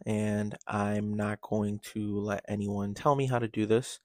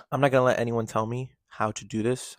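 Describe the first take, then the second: First: Said in the usual way. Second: "not" pushed louder and rising; stress on not. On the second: Real, not acted. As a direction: hit "not" firmly and louder. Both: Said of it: "sorry, I just burped".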